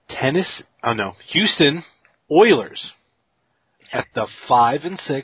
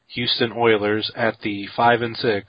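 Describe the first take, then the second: First: The phrase is spoken slowly and deliberately. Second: The phrase is spoken at a normal pace.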